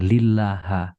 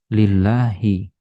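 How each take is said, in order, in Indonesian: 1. Kata ini diakhiri dengan vokal a. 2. Kata ini diakhiri dengan vokal i. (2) "Makanya ini dibaca kasroh"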